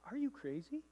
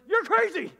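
First: It is asked as a puzzled question. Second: It is exclaimed as a forceful statement.

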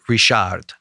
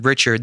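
First: The name is pronounced the French way. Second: The name is pronounced the English way. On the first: The speaker calls it right. "They would pronounce it Richard. ... It's French" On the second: The speaker calls it wrong. "no one would pronounce it Richard"

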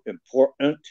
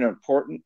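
First: The middle t is replaced by a glottal stop. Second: The middle t is pronounced as a full t. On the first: "they drop it and they just use a glottal stop" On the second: "instead of saying important"

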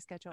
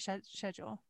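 First: The word is said the American way. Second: The word is said the British way. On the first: "I would always say schedule" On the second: "in England you say schedule"

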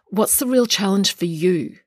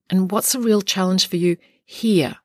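First: The stress is on the word you. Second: The stress is on the word here.

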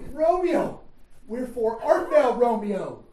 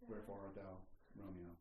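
First: It is said with strong painful feeling. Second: It is said flat, without emotion.

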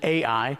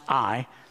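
First: The name is said as two syllables. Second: The name is said as one syllable. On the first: This is the more playful pronunciation. "It's so much more fun to pronounce it Ai" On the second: This is the usual pronunciation. "Most of the time, it's actually pronounced I"

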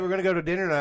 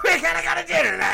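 First: It is said in her normal voice. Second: It is said in a put-on mocking voice.

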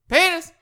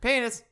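First: The word is said louder. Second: The word is said quietly. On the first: "you gradually get louder" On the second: "you start like"

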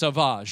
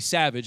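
First: It is said with a French-style pronunciation. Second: It is said like the English word savage. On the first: The speaker calls it right. "It's Sauvage, right?" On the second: The speaker calls it wrong. "You can't just say Savage"

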